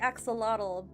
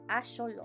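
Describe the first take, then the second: First: It is pronounced the usual English way. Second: It is pronounced closer to the original language. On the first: The speaker calls it wrong. "in English we say axolotl" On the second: The speaker calls it right. "the more correct pronunciation would be axolotl"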